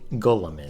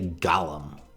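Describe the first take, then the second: First: It does not sound like the character's name. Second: It sounds like the fantasy character's name. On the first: The speaker calls it right. "That's not what a golem is" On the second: The speaker calls it wrong. "They say Gollum, like from the Lord of the Rings"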